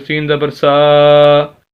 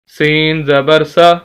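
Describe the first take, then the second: First: The final vowel is stretched out long. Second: The final vowel is kept short. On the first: The speaker calls it wrong. "आप ऐसे नहीं पढ़ सकते" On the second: The speaker calls it right. "नहीं"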